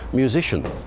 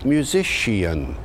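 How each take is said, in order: First: It uses the present-day pronunciation. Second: It uses the later Early Modern English pronunciation. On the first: This is how it came to be said afterwards. "later still, it became musician" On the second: This is how it was said later in the period. "Later in the period, it had evolved into musician"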